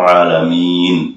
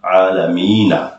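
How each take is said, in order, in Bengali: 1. শব্দটি হঠাৎ 'ন' ধ্বনিতে শেষ হয়ে যায়। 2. শব্দটি একটি শেষের 'আ' স্বরধ্বনি দিয়ে শেষ হয়। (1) "এই যে সাকিন করে থামলাম" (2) "শেষে নুনে কি আছে? জবর আছে।"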